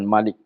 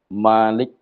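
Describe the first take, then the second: First: The first vowel is said short. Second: The first vowel is said long. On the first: The speaker calls it wrong. "Bukan Malik" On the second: The speaker calls it right. "nak mim tu nak panjang. Ada alif"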